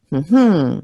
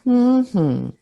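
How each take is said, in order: First: "mm-hmm" leaning hard on its second half; second-syllable stress. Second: "mm-hmm" stressed on its first half, falling away; first-syllable stress. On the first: Teacher hums the stress pattern, "mm-hmm" stressed on the second syllable. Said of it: "stress is on the second syllable". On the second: Teacher hums the stress pattern, "mm-hmm" stressed on the first syllable. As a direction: hum "mm-hmm" with the first beat long and strong. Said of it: "stressed on the first syllable". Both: Shown as a demonstration.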